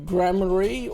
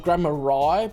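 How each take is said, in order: First: The name ends with an 'ree' sound. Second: The name ends with a 'rye' sound.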